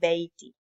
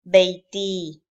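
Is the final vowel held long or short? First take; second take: short; long. First: The final vowel is kept fairly short. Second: The final vowel is drawn out very long. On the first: The speaker calls it right. "normally you just say beiti because you, you will not prolong it that long" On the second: The speaker calls it wrong. "just for the sake of seeing the difference, we will read it like that"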